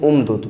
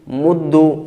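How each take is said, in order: First: The consonants are not merged and no final vowel. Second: The doubled consonant ends with a u vowel. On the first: "बग़ैर इदगाम" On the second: "दमा"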